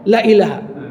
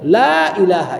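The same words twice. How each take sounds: First: The vowel in la is short. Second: The vowel in la is lengthened. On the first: The la can become an emphasizing particle, not a negation. The speaker calls it wrong. "kalau la-nya tadi pendek" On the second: There is no god but Allah. The speaker calls it right. "ada itu mat, dua harakat minimal"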